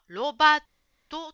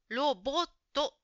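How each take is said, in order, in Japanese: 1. 二番目の音節は「a」です。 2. 二番目の音節は「o」です。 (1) "ジムさんはロバットと言ってるように聞こえました。ちょっと違いますね。" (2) "ロボットです。"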